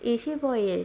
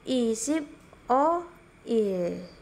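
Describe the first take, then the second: First: It is said quickly, the words run together. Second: It is said slowly, word by word. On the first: "dia bacanya cepat" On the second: "Ini kita baca pelan-pelan dulu ya"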